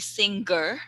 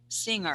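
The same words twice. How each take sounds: First: A hard G sound follows the ng. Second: No hard G sound follows the ng. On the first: The speaker calls it wrong. "Don't say singer" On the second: The speaker calls it right. "No G sound"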